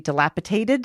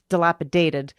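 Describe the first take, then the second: First: A T sound replaces one of the D sounds. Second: All the D sounds are said as D. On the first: The speaker calls it wrong. "I use a T instead of a D" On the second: The speaker calls it right. "but it's dilapidated"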